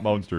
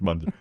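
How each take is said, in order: First: The first syllable sounds like 'mon'. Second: The first syllable sounds like 'mun'. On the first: The speaker calls it wrong. "it's not Monster" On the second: The speaker calls it right. "It's Monster"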